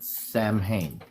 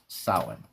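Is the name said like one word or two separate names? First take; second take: two names; one word. First: It sounds like two separate names. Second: It sounds like one single word. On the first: The speaker calls it wrong. "it's not Sam Hain. It's not a first nor a last name" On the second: The speaker calls it right. "It's one word and it's pronounced Samhain"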